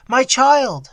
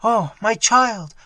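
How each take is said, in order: First: Higher, louder tearful wail; mother weeping over her daughter, high wail. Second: In a flood of tears. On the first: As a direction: let the grief break loose. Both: Acted. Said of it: "in a flood of tears".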